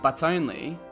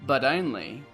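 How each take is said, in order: First: The T is a clear British T. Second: The T is a D-like flap.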